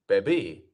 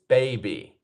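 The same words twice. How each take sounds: First: The stress is on the second syllable. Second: The stress is on the first syllable. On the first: The speaker calls it wrong. "It's not baby" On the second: The speaker calls it right. "we have our first syllable, which is the stressed one"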